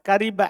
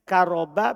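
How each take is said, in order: First: The vowel after the r is 'i'. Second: The vowel after the r is 'a'. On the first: "Boleh di kasro" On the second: "Di fathah ro-nya karo ba"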